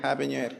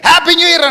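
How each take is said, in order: First: It is said softly and quietly. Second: It is said loudly with excitement. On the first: "మెల్లిగా" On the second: "ముఖం పెద్దది చేసి నోరు పెద్దదిగా sound గట్టిగా"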